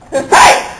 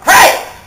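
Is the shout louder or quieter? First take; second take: quieter; louder. First: It is shouted somewhat more quietly. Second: It is shouted very loudly.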